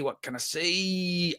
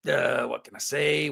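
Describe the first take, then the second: First: Slow and soft, teasing what can I say; coy drawn-out repeat. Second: Said in the usual way. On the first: Pretend. Streamer teasing chat about the rights news, slow and coy. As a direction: stretch it out like you know a secret.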